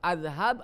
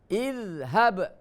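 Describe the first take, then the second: First: The word begins with an a vowel. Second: The word begins with an i vowel. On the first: The speaker calls it wrong. "Tidak boleh udhab atau azhab" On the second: The speaker calls it right. "dibacanya idhab"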